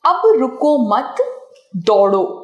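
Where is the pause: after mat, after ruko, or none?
none. The sentence is said without any pause. The meaning is unclear. "विराम चिन्ह का प्रयोग न होने से अर्थ स्पष्ट नहीं है"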